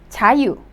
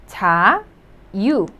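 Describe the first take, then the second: First: Said in the usual way. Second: "자, 유" split by a clear pause; syllable by syllable. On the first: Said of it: "meaning freedom". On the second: Shown as a demonstration. Teacher breaking an easy word down, syllable by syllable. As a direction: say "자, 유" as two separate syllables. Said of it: "pronounce it as the vowel U".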